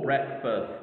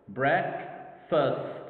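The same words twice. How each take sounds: First: Said in the usual way. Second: "Breakfast" split into break and fast; syllable by syllable. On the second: Shown as a demonstration. Teacher showing two syllables to learners, syllable by syllable. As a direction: pause clearly between the syllables of "Breakfast". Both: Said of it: "Two syllables".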